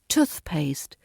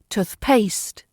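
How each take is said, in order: First: The stress is on the first part, tooth. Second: The stress is on the second part, paste. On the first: The speaker calls it right. "The correct R P stress falls on the tooth" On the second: The speaker calls it wrong. "It sounds wrong if you say toothpaste"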